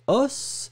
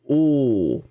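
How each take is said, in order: First: The final s is sounded; the vowel is open. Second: The final s is silent; the vowel is lower. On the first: It refers to one bone. "au singulier os" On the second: It refers to several bones. "le S n'est pas prononcé et le O est beaucoup plus grave"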